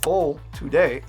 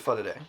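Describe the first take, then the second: First: 'For' is said with a full 'fo' vowel. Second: 'For' is reduced to 'fa' before 'today'. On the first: The speaker calls it wrong. "So fo today is incorrect" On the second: The speaker calls it right. "Fo, I'm pronouncing as fa, and today I'm saying with kind of that D sound"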